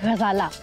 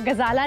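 First: It starts with a throaty, friction gh sound. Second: It starts with a plain hard g sound. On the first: The speaker calls it right. "गाँव फलक से निकलना चाहिए" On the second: The speaker calls it wrong. "गजाला नहीं"

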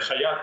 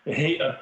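First: The name begins with a short 'ha' sound. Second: The name begins with a 'hey' sound. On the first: The speaker calls it wrong. "Це не Хаят" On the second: The speaker calls it right. "а Гейат Тахрір аш-Шам"

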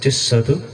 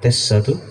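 Both takes have the same delivery.

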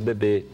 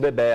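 First: The final vowel is said with a closed sound. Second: The final vowel is said with an open sound. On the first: This is how it is said in Brazil. "aqui nós falamos bebê ... nós usamos mais o som fechado" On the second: This is how it is said in Portugal. "lá eles falam bebê ... eles usam mais o som aberto"

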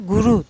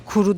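First: The word begins with a voiced g sound. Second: The word begins with a voiceless k sound. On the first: This is how locals say it. "guru diyorlar ... G harfiyle söylüyorlar" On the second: This is the standard pronunciation. "kuru değil"

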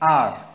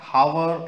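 First: The word begins with a vowel, no h sound. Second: The word begins with an audible h sound. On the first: The speaker calls it right. "H को silent करके हम पढ़ेंगे" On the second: The speaker calls it wrong. "इसमें जो H है हम इसको हार या हावर ऐसा नहीं पढ़ेंगे"

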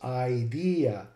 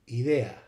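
First: The first vowel is an 'eye' sound. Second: The first vowel is a plain 'ee' sound. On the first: "the I and the E, for some reason, both became long. So it ended up being pronounced idea" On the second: "in Latin, the word would be pronounced idea"

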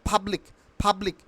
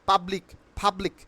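Both takes have the same delivery.

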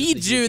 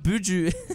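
First: The first vowel sounds like 'ee'. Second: The first vowel sounds like 'oo'. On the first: The speaker calls it right. "Biju, not Buju" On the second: The speaker calls it wrong. "not Buju"

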